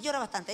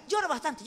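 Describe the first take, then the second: First: Repetir "llora bastante" más suave y bajo, casi en susurro; apágalo como arrullo; más bajito. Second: Suave y comprensiva, dejando llorar; consolando con ternura. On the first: ("llora bastante" en voz baja y tierna) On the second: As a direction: dale permiso para llorar. ("Llora bastante" dicho con cariño) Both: Shown as a demonstration. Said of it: "No diga".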